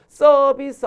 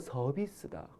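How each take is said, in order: First: The first consonant is tense. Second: The first consonant is plain. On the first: The speaker calls it wrong. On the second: The speaker calls it right.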